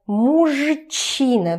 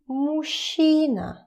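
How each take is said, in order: First: The middle has separate zh and ch sounds. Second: The middle has one long soft sh sound. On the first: The speaker calls it wrong. "It's pretty difficult to pronounce it as мужчина because those two, it's difficult to put them together" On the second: The speaker calls it right. "So you pronounce it as мужчина, мужчина, мужчина, sh, sh, sh"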